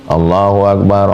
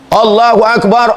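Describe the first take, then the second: First: It is said softly and quietly. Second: It is said loudly and strongly.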